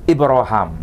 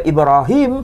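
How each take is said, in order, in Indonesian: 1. Vokal antara h dan m itu a. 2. Vokal antara h dan m itu i. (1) "Vokalnya itu vokal a antara huruf ha dan mim" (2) "tidak dibaca Ibrahim"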